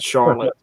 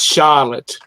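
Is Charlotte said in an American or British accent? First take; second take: American; British. First: It is said in an American accent. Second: It is said in a British accent. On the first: "not Charlotte" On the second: "we're using the British accent. So it's Charlotte"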